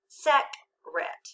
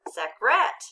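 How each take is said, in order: First: The stress is on the first syllable. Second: The stress is on the second syllable. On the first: "Let's read it together with the accent" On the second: "Let's try changing that accent to the second syllable"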